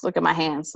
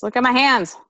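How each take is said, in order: First: Said in the usual way. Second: Louder, higher repeat; insistent. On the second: Real, not acted. Showing the listener how the dress gapes, insistent. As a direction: raise pitch and volume to demand attention.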